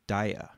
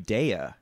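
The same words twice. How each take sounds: First: The first syllable sounds like "die". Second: The first syllable sounds like "day". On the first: The speaker calls it wrong. "not a sad Daya" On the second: The speaker calls it right. "It's a brand new Daya"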